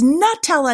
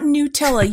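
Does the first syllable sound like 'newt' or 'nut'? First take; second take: nut; newt. First: The first syllable sounds like 'nut'. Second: The first syllable sounds like 'newt'. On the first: The speaker calls it right. "It's Nutella" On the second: The speaker calls it wrong. "not Nutella. You don't say I'm going to grab a handful of newts"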